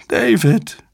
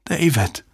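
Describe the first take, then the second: First: Very high, desperate cry; anguished calling. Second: Higher, falling, subdued call; stunned calling. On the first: Susan calls the man she loves, anguished cry. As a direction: cry the name out higher, pleading. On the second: Susan calls the man she loves, stunned. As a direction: call the name in disbelief. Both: A narrator's reading. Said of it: "rief wieder und wieder den Namen".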